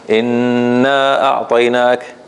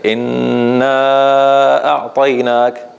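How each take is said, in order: First: The long vowel is held for two counts. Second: The long vowel is held for four counts.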